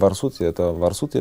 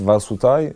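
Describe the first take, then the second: First: The name ends with an 'iya' sound. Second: The name ends with an 'ai' sound. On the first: This is the pronunciation the brand itself uses. "мы произносим Варсутия" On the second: This is a pronunciation some other people use. "если кто-то говорит Варсутай"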